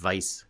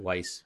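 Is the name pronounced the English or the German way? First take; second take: German; English. First: The name is pronounced the German way. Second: The name is pronounced the English way.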